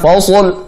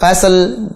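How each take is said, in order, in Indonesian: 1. Setiap huruf dalam kata itu terdengar berat. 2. Setiap huruf dalam kata itu terdengar ringan. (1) "tebal semua" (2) "tipis semua"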